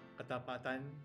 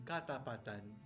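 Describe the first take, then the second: First: It is said with its plain, usual stress. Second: It is said with an added stress accent.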